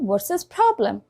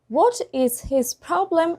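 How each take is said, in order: First: The first words blend into a short reduced form. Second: Each word is said fully and separately.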